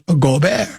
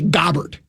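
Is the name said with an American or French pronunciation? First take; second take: French; American. First: The name is said with a French pronunciation. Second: The name is said with an American pronunciation. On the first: "but the French pronunciation is Gobert" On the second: "In America, you would just say Gobert"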